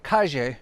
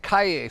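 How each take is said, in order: First: It is said with a Spain or Argentine accent. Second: It is said with a Mexican Spanish accent. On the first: "but in Spain or Argentina, they say calle" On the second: "Here in Mexico, they'd say calle"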